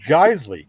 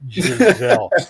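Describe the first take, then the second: First: The name is said as Geisley. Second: The name is said as Giselle. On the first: The speaker calls it right. "It's Geisley" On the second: The speaker calls it wrong. "you were obviously a product of the public school system"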